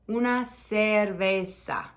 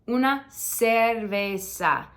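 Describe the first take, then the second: No difference in how they are said.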